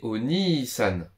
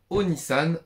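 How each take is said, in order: First: The i vowel after n is long. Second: The i vowel after n is short. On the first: The speaker calls it right. "mais Oni-san. ... Pour prolonger le I du Ni, on rajoute un I" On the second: The speaker calls it wrong. "On dit pas Onisan"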